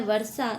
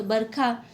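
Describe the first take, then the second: First: Said in the usual way. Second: बरखा, with b and kh for व and ष; Eastern Hindi kh. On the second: Shown as a demonstration. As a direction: say बरखा as bar-khaa. (बरखा, ष की जगह ख) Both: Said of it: "खे की तरह होता है".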